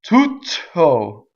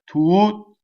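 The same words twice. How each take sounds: First: The T is doubled and released with air. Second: A silent gap comes before one clean T. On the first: The speaker calls it wrong. "So I don't do tutto, nor do I put air through it like I just did" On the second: The speaker calls it right. "I go up to the T, I don't say it"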